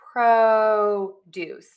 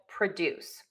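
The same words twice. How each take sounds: First: The stress is on the first syllable. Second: The stress is on the second syllable. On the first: It is used as a noun. "we are going to stress that syllable" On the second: It is used as a verb. "we are going to shift the stress to the second syllable"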